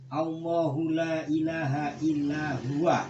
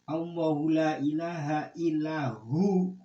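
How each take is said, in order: First: The phrase ends with the full syllables 'huwa'. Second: The phrase ends with a short 'hu' only. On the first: No god except Him, meaning God. The speaker calls it right. "harus dibaca gitu" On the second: The pronoun refers back to 'god', not God. The speaker calls it wrong. "huanya tidak dibaca"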